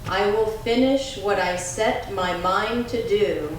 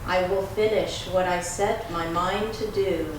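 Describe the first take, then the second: First: It is said in a strong, loud voice. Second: It is said in a softer, deeper voice. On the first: "first in a strong voice" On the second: "a little softer and a little deeper"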